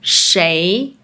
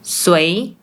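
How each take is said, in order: First: It is said in standard Mandarin. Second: It is said in Malaysian Mandarin.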